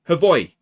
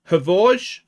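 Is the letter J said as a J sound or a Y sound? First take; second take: Y sound; J sound. First: The J is said as a Y sound. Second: The J is said as a J sound.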